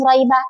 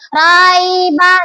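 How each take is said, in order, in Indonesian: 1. Vokal pertama pendek dan langsung diucapkan. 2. Vokal pertama dipanjangkan sedikit. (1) "nggak bisa langsung roiba. Itu nggak bisa biasa" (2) "dibaca agak panjang ... Harus roiba gitu ya"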